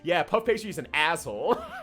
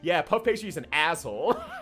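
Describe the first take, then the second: First: It is said in an Italian accent. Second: The same.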